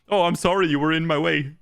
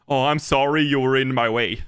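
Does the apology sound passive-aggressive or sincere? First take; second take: passive-aggressive; sincere. First: The apology sounds snide and passive-aggressive. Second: The apology sounds plain and sincere. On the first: The apology is a veiled insult. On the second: The apology is meant honestly.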